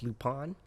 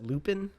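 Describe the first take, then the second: First: The name is said with a French pronunciation. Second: The name is said with an American pronunciation. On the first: "when they pronounce it, it's Lupin" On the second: "Americans pronounce it Lupin"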